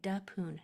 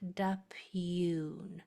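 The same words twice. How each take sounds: First: The final vowel sounds like 'oo'. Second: The final vowel sounds like 'you'. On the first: The speaker calls it right. "it sounds just like ooh" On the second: The speaker calls it wrong. "not dapoon"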